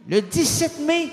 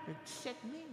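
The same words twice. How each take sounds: First: "Le dix-sept mai" high and loud; "Le dix-sept mai" proclamé haut et fort; proclaimed. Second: Breathy whisper of "Le dix-sept mai"; "Le dix-sept mai" murmuré tout bas. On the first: Loud take after whisper. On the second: Whispered take before loud take. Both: Shown as a demonstration.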